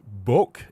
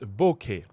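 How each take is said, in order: First: The word ends with a bare k sound. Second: The word ends with a full 'kay' syllable. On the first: The speaker calls it wrong. "a lot of people might mispronounce it as boke" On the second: The speaker calls it right. "it's bouquet"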